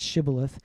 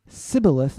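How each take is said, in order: First: The word begins with an sh sound. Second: The word begins with a plain s sound. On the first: The speaker is from the checking tribe. The speaker calls it right. "not Shibboleth" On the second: The speaker is from the enemy tribe. The speaker calls it wrong. "he could not pronounce it correctly"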